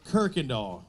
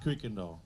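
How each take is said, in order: First: The name starts with the sound 'kirk'. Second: The name starts with the sound 'kuy'. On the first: The speaker calls it right. "Kirkendall, not Kuykendall" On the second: The speaker calls it wrong. "not Kuykendall"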